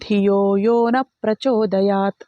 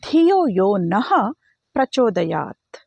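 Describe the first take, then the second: First: The word 'na' ends without a breathy h. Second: The word 'na' ends with a breathy h. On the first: It asks not to be inspired toward good. The speaker calls it wrong. "ವಿಸರ್ಗನ ಬಿಟ್ಟು" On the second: It asks to be inspired toward good. The speaker calls it right. "ನಃ ಅಂತ ವಿಸರ್ಗ ಮಾಡಿದ್ರೆ ಮಾತ್ರ"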